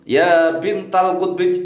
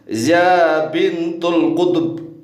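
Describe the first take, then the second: First: The phrase ends with the sounds bintal kutbi. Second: The phrase ends with the sounds bintul kutub. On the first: The speaker calls it right. "harusnya kan munada mudhof itu ya bintal kutbi" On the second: The speaker calls it wrong. "jangan dibaca ya bintul kutub"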